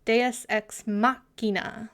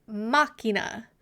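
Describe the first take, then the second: First: "Deus Ex Machina" slowly, MACH stressed; "Deus Ex Machina" with MAH-kee-na leaned on MACH. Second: "Machina" with the first syllable stressed, MAH-kee-na; "Machina", hit MAH, then kee-na. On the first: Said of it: "with emphasis on the mach". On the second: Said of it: "First syllable accent". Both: Shown as a demonstration.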